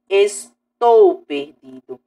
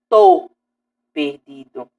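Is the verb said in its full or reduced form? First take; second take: full; reduced. First: The verb is said with both syllables. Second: The verb is shortened to one syllable. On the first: This follows the formal standard. The speaker calls it right. "mas sim estou perdido" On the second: This is casual spoken language. The speaker calls it wrong. "não tô perdido"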